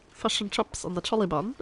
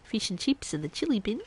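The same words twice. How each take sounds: First: New Zealand vowels, "fush and chups"; exaggerated New Zealand accent. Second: Australian vowels, "feesh and cheeps"; higher, caricatured Aussie accent. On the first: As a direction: say it in a hammed-up Kiwi accent. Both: Shown as a demonstration. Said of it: "That is a very stereotypical Australian accent".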